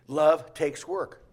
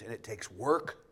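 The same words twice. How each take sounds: First: Love takes work, said loud and very slow; a preacher hammering home Love takes work; emphatic. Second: Said in the usual way. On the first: Shown as a demonstration. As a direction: lean hard into every word of Love takes work.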